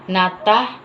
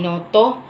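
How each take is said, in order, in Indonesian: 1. Kedua vokal dibaca sebagai 'a' terbuka. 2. Kedua vokal dibaca sebagai 'o' bulat. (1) "Huruf A dibaca menjadi O" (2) "Huruf A dibaca menjadi O"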